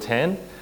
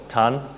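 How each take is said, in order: First: The name is said the anglicized way. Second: The name is said the Singaporean way.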